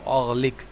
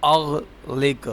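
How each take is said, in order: First: Said in the usual way. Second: اغلق stretched very slow, every sound held; slowly drawn out. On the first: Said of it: "teacher repeats the word". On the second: Shown as a demonstration. Teacher spelling out a new word for the child, very slow. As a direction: draw out اغلق syllable by syllable. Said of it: "teacher drills the word".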